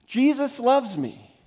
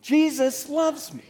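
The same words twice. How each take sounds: First: Higher, louder chant. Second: High, louder and slow. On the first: Pastor leading congregation call-and-response, loud. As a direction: lead the room in saying it. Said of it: "say it out loud with me". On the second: Pastor urging congregation to say it louder. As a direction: push it out louder still. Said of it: "Say it louder". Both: Shown as a demonstration.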